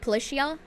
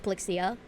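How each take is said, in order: First: The name is said with a 'ch' sound. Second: The name is said without a 'ch' sound. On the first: The speaker calls it wrong. "it's not pronounced like ch" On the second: The speaker calls it right. "It's pronounced Polixia"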